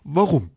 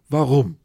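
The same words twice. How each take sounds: First: Warum short, loud and falling; stress on Warum. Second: Warum punched loud and falling; stress on warum. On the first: Shown as a demonstration. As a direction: land the single word Warum firmly. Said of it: "einfach nur sagen". (knappes, lautes „Warum?“) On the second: Retold or imitated. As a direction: hit warum hard and flat. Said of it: "Frage, warum". (betontes „warum?“ mit fallendem Ton)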